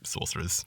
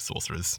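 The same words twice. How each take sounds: First: The word is pronounced in a distorted way. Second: The word is pronounced in a distorted way.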